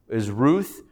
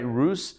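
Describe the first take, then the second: First: The name ends with a TH sound. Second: The name ends with an S sound. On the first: This is the English form of the name. "Her English name is Ruth" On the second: This is the Hebrew form of the name. "Rus, the way we're pronouncing it"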